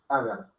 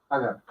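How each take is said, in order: No difference in how they are said.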